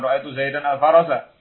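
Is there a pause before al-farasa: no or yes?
no. It runs straight on with no pause before al-farasa. The speaker calls it wrong.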